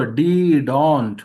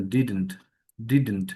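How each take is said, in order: First: "didn't" loud and stretched into "dii-dont"; mistaken pronunciation. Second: "didn't" short, with the second vowel swallowed; correct pronunciation. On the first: Teacher warning of a problem, overdrawn "didn't". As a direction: split "didn't" into two long, full syllables. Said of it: "উচ্চারণের ক্ষেত্রে খুব সমস্যা". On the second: Teacher giving the form to remember, short falling "didn't". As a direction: say "didn't" compactly as "DID-nt", falling. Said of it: "এই জন্য মাথায় রাখবেন". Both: Shown as a demonstration.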